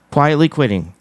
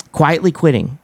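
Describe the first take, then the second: No difference in how they are said.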